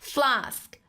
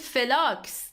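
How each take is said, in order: First: The f and l are joined without a vowel. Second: An extra vowel is inserted after the f. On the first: The speaker calls it right. "in English we have to say flask" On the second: The speaker calls it wrong. "in Persian we call it felax. That's not true"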